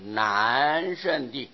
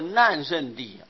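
First: The first syllable has a non-falling tone. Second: The first syllable has a falling tone. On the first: It means the ground that is hard to surpass. The speaker calls it right. "必定要念作难胜地，很难胜过他啊" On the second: It would mean the ground of calamity. The speaker calls it wrong. "现在不能念作难胜地啊"

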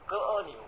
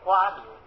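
First: The first syllable is pronounced ge. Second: The first syllable is pronounced gua. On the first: This is the less common reading. "有歌牛" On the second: This is the usual reading. "有瓜牛"

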